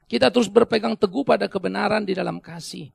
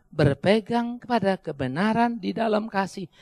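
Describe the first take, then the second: First: Said in the usual way. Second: "Berpegang kepada kebenaran di dalam kasih" said slowly, each word weighed; slow it down to drive it home; slow, deliberate repeat. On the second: Shown as a demonstration. (ucapkan pelan dan tegas, kata demi kata)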